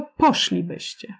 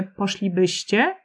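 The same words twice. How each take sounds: First: Poszlibyście stressed early, on POSZ; stress moved earlier. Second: Poszlibyście stressed on BYŚ; stress on second-to-last syllable. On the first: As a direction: say poszlibyście with the beat on first syllable posz. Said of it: "tylko poszlibyście". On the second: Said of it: "raczej nie usłyszymy poszlibyście". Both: Shown as a demonstration.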